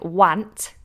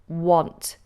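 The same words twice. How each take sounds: First: The vowel sounds like a flat 'a'. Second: The vowel sounds close to an 'o'. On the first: The speaker calls it wrong. "It's not a, like want" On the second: The speaker calls it right. "you pronounce this almost like it's got an O in it"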